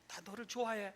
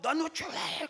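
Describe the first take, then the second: First: The phrase is said softly and warmly. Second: The phrase is shouted loudly. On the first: "이거" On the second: "고함치는 것"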